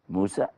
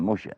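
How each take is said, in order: First: The middle consonant is a plain s sound. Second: The middle consonant is an sh sound. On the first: This is the name as Arabic speakers say it. "an S sound" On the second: This is the name as Hebrew speakers say it. "a sh sound"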